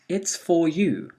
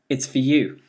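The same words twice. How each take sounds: First: The word 'for' is said in full form. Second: The word 'for' is reduced to weak form.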